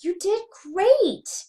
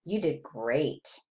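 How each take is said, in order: First: Much higher, drawn-out "great" with a falling end; enthusiastic intonation. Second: "great" kept low and slow, no lift; low-key, unexcited "great"; flat intonation. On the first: Lecturer shows students the contrasting take, high gushing intonation. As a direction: gush it slowly, "great" swooping high. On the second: Lecturer shows students the unexcited take, flat intonation. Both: Shown as a demonstration. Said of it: "So here's intonation".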